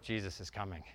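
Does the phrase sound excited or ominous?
ominous. It is said in a warning, ominous tone. His return is something to fear. The speaker calls it wrong. "wait till your dad gets home mode"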